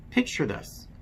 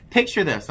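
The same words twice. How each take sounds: First: Said in the usual way. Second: PICTURE this, louder and punchier, falling hard; dramatic redo. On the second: Shown as a demonstration. To subscribers, redoing the intro with drama. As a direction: restart the line with theatrical weight.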